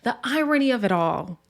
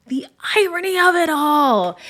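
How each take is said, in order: First: Said in the usual way. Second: IRONY OF IT ALL punched high and loud; emphatic repeat. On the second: Real, not acted. Recapper hammering the irony of it all, high, loud and emphatic.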